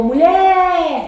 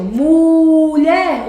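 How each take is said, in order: First: MULHER called out with a long, loud final LHER; stress on LHER. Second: MULHER called out with a long, loud MU; stress on MU. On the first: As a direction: lean hard on the last syllable, mu-LHEEER. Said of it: "o lher é mais forte". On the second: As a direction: wrongly stretch the first syllable, MUUU-lher. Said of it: "qual é a mais forte". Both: Shown as a demonstration.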